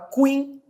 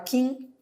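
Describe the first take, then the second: First: A u sound is heard after the k. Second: No u sound is heard after the k. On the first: The speaker calls it wrong. "você não pronuncia o U, você não fala queen" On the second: The speaker calls it right. "Você fala quim"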